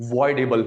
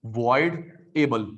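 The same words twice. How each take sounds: First: Said in the usual way. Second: voidable stretched out very slowly, each syllable apart; slow drilled word. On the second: Shown as a demonstration. Teacher repeats voidable slowly so students note it. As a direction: spell out voidable slowly for dictation. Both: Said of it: "teacher drills the term".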